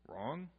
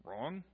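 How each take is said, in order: Both takes have the same delivery.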